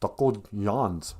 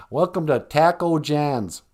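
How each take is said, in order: First: "John's" softened to "Yahn's"; Spanish-style pronunciation. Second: Slow, flattened Minnesotan vowels in "Taco John's"; Minnesota accent. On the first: Trying a more Mexican name for the place, "John's" as "Yahn's". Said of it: "decency to call it Taco Juan's". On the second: Welcoming customers to the taco place, Minnesota accent. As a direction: greet them in a broad, slow Minnesota accent. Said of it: "like, Minnesota accent". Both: Acted.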